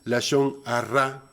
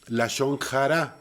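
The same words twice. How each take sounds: First: The R is strongly trilled. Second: The H is a harsh throaty sound. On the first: "con doble R" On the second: "pronunciando la H eh, como una J"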